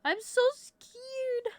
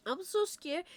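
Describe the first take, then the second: First: Much higher, slow, whiny mock fright; mock scared squeak. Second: Said in the usual way. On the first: Streamer dreading meeting people, high slow mock fright. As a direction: stretch it out in a tiny frightened voice. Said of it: "You sound like this".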